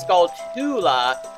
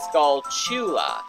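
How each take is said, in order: First: The second part starts with a 't' sound. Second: The second part starts with a 'ch' sound. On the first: "I was saying it as Skull Tula" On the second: "it's pronounced as Skull Chula. You know, chew, C H"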